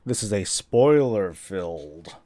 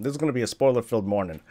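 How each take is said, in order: First: Slow emphatic. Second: Quick rephrase. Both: Shown as a demonstration.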